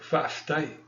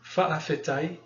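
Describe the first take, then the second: First: It is said fast with a syllable swallowed. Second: Every syllable is said slowly and in full. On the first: "it goes by so fast and that glottal stop almost gets swallowed up" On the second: "it sounds like you should say this"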